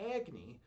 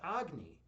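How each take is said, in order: First: The name is said an anglicized English way. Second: The name is said the traditional Hindi way. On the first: "but I pronounce it Agni"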